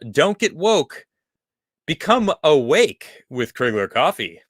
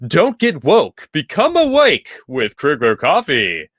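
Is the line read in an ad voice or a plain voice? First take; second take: plain voice; ad voice. First: It is read in a plain reading voice. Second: It is read in a put-on commercial voice. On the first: The speaker calls it wrong. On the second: The speaker calls it right.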